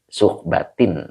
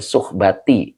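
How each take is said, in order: First: The word ends with an added n sound. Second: The word ends on a vowel without n. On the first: The speaker calls it wrong. "dijerkan dengan kasroh yang bertanwin" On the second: The speaker calls it right. "enggak pakai tanwin ya"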